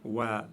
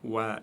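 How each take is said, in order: The two takes are said the same way.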